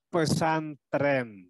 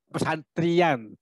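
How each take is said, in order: First: The word ends with a single-vowel -en sound. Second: The word ends with a two-vowel -ian sound. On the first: It is easy to say. The speaker calls it right. "supaya mudah mengatakannya" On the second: It is heavy on the tongue. The speaker calls it wrong. "Pesantrian itu berat di lidah"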